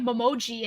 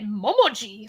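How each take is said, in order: First: It is said with a plain English-style stress. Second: It is said with a Japanese-style syllable accent. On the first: "we used to say it" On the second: "now we say it"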